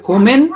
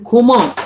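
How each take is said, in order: First: "kommen" with a clear final N, rising; N ending. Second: "komme" falling on an open "uh", no N; open E ending. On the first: Teacher contrasting two endings, "kommen" with its N. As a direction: close "kommen" on N, lifting the tune. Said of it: "A N". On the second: Teacher contrasting two endings, "komme" without N. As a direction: leave "komme" open on its last vowel. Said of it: "E has to be there". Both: Shown as a demonstration.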